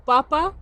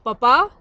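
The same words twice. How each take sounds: First: PAPA stressed on the first syllable, PÁpa; potato stress. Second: PAPA stressed on the second syllable, papÁ; father stress. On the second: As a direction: say "Papa" as Spanish for dad, end stressed. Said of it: "there's the intonation there". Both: Shown as a demonstration.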